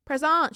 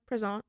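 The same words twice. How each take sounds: First: Higher, louder roll-call answer; retold raised-voice answer; louder repeat. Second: Said in the usual way. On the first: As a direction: say it up so a hard-of-hearing teacher catches it. Repeats answer to teacher who can't hear.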